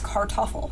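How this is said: The R is strong and clearly pronounced. The speaker calls it wrong. "a lot of Americans would say it as Kartoffel, and you really hear the R"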